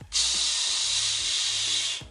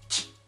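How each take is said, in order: First: The ch sound is long and drawn out. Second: The ch sound is short and clipped. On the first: "tiene que ser más alargado, así" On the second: "como CH"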